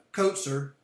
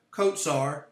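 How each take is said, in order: First: Kotzer with the first syllable stressed; corrected stress. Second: Kotsar with the second syllable stressed; wrong-syllable stress. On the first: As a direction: say kotzer as KOT-zer. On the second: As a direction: say kotsar as kot-SAR. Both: Real, not acted. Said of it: "Emphasis on the wrong syllable there".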